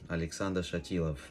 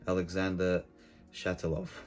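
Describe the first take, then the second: First: The name is said in a Russian accent. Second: The name is said in an English accent.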